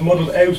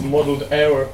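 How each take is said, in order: First: "out" said with a clear final t; misprinted word out. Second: "hour" said clearly as the right word; intended word hour. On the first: Poet showing audience the book's typo, clear "out". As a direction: read out "out" as the misprint, ending on t. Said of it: "it says muddled out in the book". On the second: Poet correcting a misprint in the book, clear "hour". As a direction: read out "hour", with no t at the end. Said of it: "It should say muddled hour". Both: Shown as a demonstration.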